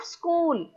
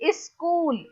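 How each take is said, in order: First: Said in the usual way. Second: SCHOOL with an added i at the front, "is-kool"; UP pronunciation. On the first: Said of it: "Instead of school". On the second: Shown as a demonstration. Teacher contrasting regional pronunciation for students, SCHOOL said "is-kool". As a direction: say SCHOOL as "iskool". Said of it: "they will pronounce".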